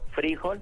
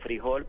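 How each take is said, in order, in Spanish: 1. El acento está en la primera sílaba. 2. El acento está en la última sílaba. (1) "con tilde como palabra grave" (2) "como palabra aguda"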